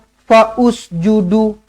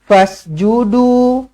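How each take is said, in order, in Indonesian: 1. Vokal 'u' tambahan dibunyikan sebelum s. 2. Bunyi s langsung mengikuti 'fa', tanpa vokal tambahan. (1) "Tak nak" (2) "hamzah wasal pada tengah-tengah kalimah tidak tidak berfungsi"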